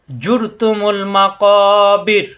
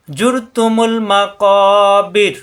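First: কবির ending on a thin, light r, slow chant; light ra recited. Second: জুর with a thick, heavy r, slow chant; heavy ra recited. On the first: Teacher shows students the light ra at the stop, slow recitation. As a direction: let the r of কবির come out light. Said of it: "এখানে পাতলা হবে". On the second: Teacher shows students where ra is heavy, slow recitation. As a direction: lean on জুর, making its r heavy. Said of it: "জুর এখানে কিন্তু মোটা". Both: Shown as a demonstration.

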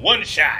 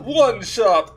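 First: Loud one shot call; triumphant shout. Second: High loud vampire count; Count Von Count. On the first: Real, not acted. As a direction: shout the kill. First plain shout of kill. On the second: Acted. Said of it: "That's my Count Von Count impression".

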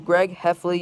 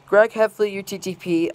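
First: Said in the usual way. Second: Angry call. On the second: Real, not acted. Speaker scolding Greg Heffley, angry raised call. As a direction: call his name out in anger. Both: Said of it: "very furious and angry message to".

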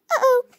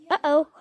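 First: Higher, louder alarmed uh-oh. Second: Said in the usual way. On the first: Acted. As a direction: blurt out an alarmed uh-oh. Same word said twice.

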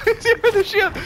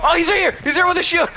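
First: Laughing shout. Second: Loud and high, alarmed; excited shout. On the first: Repeats the warning laughing. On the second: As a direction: shout the warning. Spotting an enemy. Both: Real, not acted.

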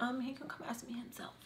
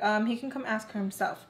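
First: Whispered, seductive version; flirty whisper. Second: Said in the usual way. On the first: Shown as a demonstration. Showing how it would sound as flirting, whispered. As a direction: breathe it as a flirty hint. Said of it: "It would be different if I was like". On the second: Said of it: "It would be different if".

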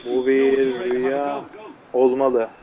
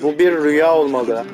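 First: Slow, hushed mock-dramatic; mock dreamy. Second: Said in the usual way. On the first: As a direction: drift into a fake dream voice. (rüyadaymış gibi yavaş, alaycı dramatik ses)

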